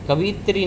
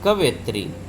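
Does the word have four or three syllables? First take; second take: three; four. First: The word is said with three syllables. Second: The word is said with four syllables. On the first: The speaker calls it wrong. "कवित्री नहीं" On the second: The speaker calls it right.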